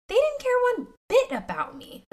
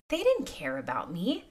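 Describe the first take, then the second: First: Much higher, anguished exclaim; pained cry. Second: Said in the usual way. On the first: Retold or imitated. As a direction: let the hurt jump up high. Reliving her younger self's realization.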